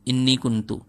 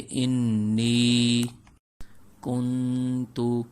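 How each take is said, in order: First: The 'ni' vowel is short and rushed. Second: The 'ni' vowel is held long. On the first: The speaker calls it wrong. "नी को लंबा नहीं करते, जल्दी से पढ़ लेते हैं" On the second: The speaker calls it right. "नी को लंबा करेंगे"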